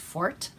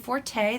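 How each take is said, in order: First: The word is said with one syllable. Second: The word is said with two syllables. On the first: This is the version the dictionary prefers. "the preferred pronunciation as Fort" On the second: This is the version most people use. "a lot of you will say Forte. That's what you hear most often"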